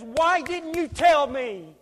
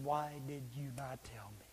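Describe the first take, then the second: First: High, drawn-out reproach; anguished appeal. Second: Low, barely voiced plea; whispered reproach. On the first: Acted. Lost classmate to believer at judgment, anguished appeal. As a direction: plead it slowly in a raised voice. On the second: Lost friend to believer at judgment, whispered reproach. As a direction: breathe the question out in a near whisper.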